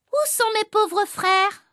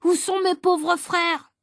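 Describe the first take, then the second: First: High, slow, hammed-up wail of despair; a schoolboy overacting despair, drawn out and high; a little boy reading his despairing line high and slow for the class; mock despair. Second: A prompter feeding the line, slow and high; a greedy boy playing prompter, calling out the line slow and high; prompter's voice. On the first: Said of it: "tu es désespéré". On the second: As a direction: call the line out as the prompter, drawn out. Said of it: "Je suis le souffleur, alors je souffle".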